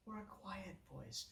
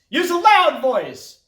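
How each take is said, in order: First: Barely audible, hushed; very soft demonstration; quiet voice. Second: High, loud call; raised-voice demonstration. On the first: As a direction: drop to a tiny quiet voice. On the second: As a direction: belt it out loudly. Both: Shown as a demonstration.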